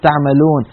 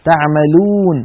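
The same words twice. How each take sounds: First: تعملون ending in "-lone"; تعملون with a slack "o"; faulty open vowel. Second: تعملون ending in a long "-loon"; تعملون with a close "uu"; correct pure waw. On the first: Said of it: "ولا نقول". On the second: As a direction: round the lips on the last vowel of تعملون. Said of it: "ولا نقول تعملون". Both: Shown as a demonstration.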